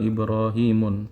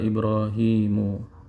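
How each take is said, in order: First: The word ends with an added n sound. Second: The word ends on a plain u vowel. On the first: The speaker calls it wrong. "tidak tepat kalau kita mengatakan Ibrahimun" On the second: The speaker calls it right. "yang benar adalah Ibrahimu"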